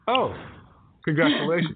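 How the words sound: There is a pause between 'oh' and 'congratulations'. The person is unsure what to say about the age. "they pause. So they go"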